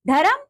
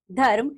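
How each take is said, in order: First: "धर्म" as high, rising "dha-ram"; wrong pronunciation. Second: Said in the usual way. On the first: Shown as a demonstration. Teacher showing pupils the r error, "धर्म" mispronounced as "dharam". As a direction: split "धर्म" into two syllables, "dharam". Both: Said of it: "र संबंधी अशुद्धियां".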